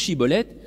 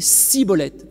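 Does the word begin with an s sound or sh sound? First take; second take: sh; s. First: The word begins with a sh sound. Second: The word begins with a plain s sound. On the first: The speaker belongs to the home group. The speaker calls it right. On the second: The speaker is from the rival tribe. The speaker calls it wrong.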